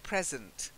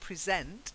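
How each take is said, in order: First: The stress is on the first syllable. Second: The stress is on the second syllable. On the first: The speaker calls it right. "So it's drops more at the end" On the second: The speaker calls it wrong. "the sent bit comes on"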